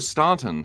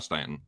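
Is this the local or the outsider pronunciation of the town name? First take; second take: outsider; local. First: The name is said the way outsiders say it. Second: The name is said the way locals say it. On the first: The speaker is not from the area. The speaker calls it wrong. "a lot of people see that that aren't from there. They're like, oh, Staunton" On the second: The speaker is from the area. The speaker calls it right. "now Stanton"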